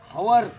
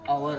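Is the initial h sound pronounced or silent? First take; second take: pronounced; silent. First: The word begins with an audible h sound. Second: The word begins directly with a vowel sound. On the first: The speaker calls it wrong. "याचा उच्चार हवर असं नाही आहे" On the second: The speaker calls it right. "त्याचा उच्चार अवर आहे"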